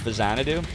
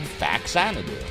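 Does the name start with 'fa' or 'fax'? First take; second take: fa; fax. First: The name begins fa, then a z sound. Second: The name begins with the word fax. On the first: It combines Famicom with Xanadu. "the real pronunciation is Fazanadu" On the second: It reads the written name as fax plus Anadu. "as in fax and Anadu"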